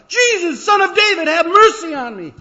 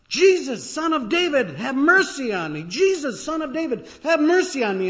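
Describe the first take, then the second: First: Much higher, much louder, full-throated cry; all-out pleading yell; desperate holler. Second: High, loud cry for mercy; loud pleading shout; begging shout. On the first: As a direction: scream for mercy over everyone. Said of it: "makes you holler all the more". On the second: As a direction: call out desperately over a crowd. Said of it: "suddenly you begin to shout". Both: Acted.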